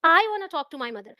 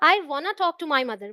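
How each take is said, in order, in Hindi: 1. Stress शब्द 'I' पर है। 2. स्ट्रेस शब्द 'want' पर है। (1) "अगर मैं आई पर स्ट्रेस दूं" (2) "ऐसा नहीं है कि कोई मुझे फोर्स कर रहा है"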